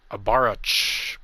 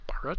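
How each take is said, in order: First: Baruch said very slowly, syllable by syllable; careful pronunciation. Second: Baruch whispered as an unsure question; whispered try. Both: Shown as a demonstration. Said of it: "I think that's how you pronounce it".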